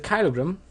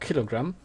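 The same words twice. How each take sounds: First: The word is said with a German accent. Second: The word is said with an English accent. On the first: The speaker calls it wrong. "Sorry for my German accent" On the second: The speaker calls it right. "as I should say"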